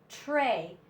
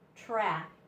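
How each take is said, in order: First: The vowel is a long 'ay' sound. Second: The vowel is a short 'a' sound. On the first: The speaker calls it right. "this says tray" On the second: The speaker calls it wrong. "not tra"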